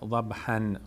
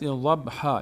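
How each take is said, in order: First: The word ends with an added n sound. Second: The word ends in a long a vowel. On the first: The speaker calls it wrong. "نگید ضبحن" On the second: The speaker calls it right. "والعادیات ضبحا"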